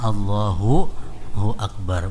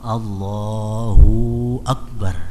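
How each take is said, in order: First: The vowel in 'hu' is short. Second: The vowel in 'hu' is drawn out long. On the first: The speaker calls it right. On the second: The speaker calls it wrong. "hu-nya kepanjangan"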